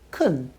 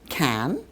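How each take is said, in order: First: The word has a weak, reduced vowel. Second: The word has a full, clear vowel. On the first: "and weakly"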